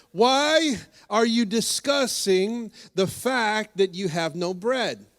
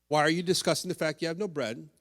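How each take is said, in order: First: Drawn-out, weighty Jesus question; a hint of Jesus rebuking the disciples, slow and pointed; slow emphatic question. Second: Rattled off fast; preacher recapping for the congregation, fast; quick recap. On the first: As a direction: lean on each word, very slowly. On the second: Shown as a demonstration. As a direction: run through it briskly as a summary. Quick recap of Jesus' questions.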